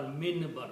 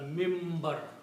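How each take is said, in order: First: The sound before the b is an n. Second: The sound before the b is an m. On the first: The speaker calls it wrong. "We don't call minbar" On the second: The speaker calls it right. "We call mimbar"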